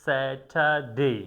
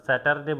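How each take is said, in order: First: Slow স্যাটারডে, R silent, "sa-tha-day"; correct R-less Saturday. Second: স্যাটারডে with hard T and sounded R, "sa-tar-de"; quick স্যাটারডে, pronouncing the R; wrong R-ful Saturday. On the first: Teacher giving the correct form, slow with silent R. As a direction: draw out স্যাটারডে with airy T and no R. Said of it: "আমরা বলবো". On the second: Teacher showing what not to say, R sounded. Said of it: "স্যাটারডে বলবো না". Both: Shown as a demonstration.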